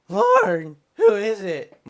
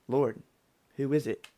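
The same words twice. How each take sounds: First: The voice cracks partway through. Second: The voice stays steady throughout.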